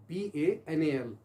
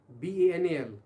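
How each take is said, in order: Both takes have the same delivery.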